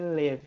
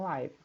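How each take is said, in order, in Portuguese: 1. A vogal é curta, rimando com give. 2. A vogal é longa, rimando com five. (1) "a pronúncia é live" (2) "e não live ... significa ao vivo"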